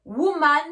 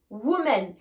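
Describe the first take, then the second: First: "Woman" ending in an open man; teacher's model "Woman" with clear a ending; singular form. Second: "women" ending in men with an e; teacher's model "women", falling, with clear e ending; plural form. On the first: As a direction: open the last vowel of "Woman" to a. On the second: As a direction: lower "women", last vowel eh. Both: Shown as a demonstration. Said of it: "attention aussi à la prononciation".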